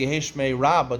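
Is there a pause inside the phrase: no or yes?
no. The words run together without a pause. It refers to the great name. The speaker calls it right. "you should say"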